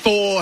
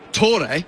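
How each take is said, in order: First: The name is said the English way. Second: The name is said the native way. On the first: "the English pronounce it" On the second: "If you were to pronounce it correctly"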